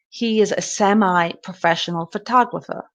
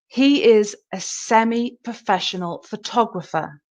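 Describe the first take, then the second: First: Semi ends with an 'eye' sound. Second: Semi ends with an 'ee' sound. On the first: "And in America" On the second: "we focus on the E sound in the British"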